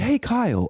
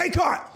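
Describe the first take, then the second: First: The greeting sounds friendly and courteous. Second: The greeting sounds aggressive and confrontational. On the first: The questioner is showing professional respect. The speaker calls it right. "professional and polite" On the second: The questioner is challenging the coach. The speaker calls it wrong. "Do you want me to be like more argumentative?"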